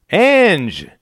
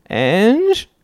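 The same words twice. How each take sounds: First: High, loud cheery greeting; grinning call. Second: High, rising, hurt plea; wounded husband. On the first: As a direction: call her name through a grin. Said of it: "he grinned". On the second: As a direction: cry out like a wronged husband. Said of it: "cried out in the wounded husband voice". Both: A narrator's reading.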